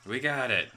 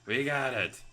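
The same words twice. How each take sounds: The two takes are said the same way.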